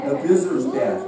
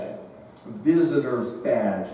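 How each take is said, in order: First: Said in the usual way. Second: Central California accent, slowed right down and lower. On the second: Real, not acted. Preacher catching his own slip, Central California accent. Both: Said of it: "that Central California accent coming out".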